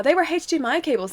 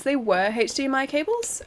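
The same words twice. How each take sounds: First: Said in the usual way. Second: "cables" lifted at the end as a question; questioning repeat. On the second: Real, not acted. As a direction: repeat it back to check, rising on "cables".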